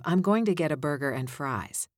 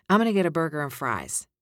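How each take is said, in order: First: Said in the usual way. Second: I'm gonna said as 'm-onna, loose and quick; casual gonna. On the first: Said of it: "instead of". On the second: Shown as a demonstration. Coach showing a casual everyday read. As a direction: toss it off like ordering at a counter. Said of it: "like this".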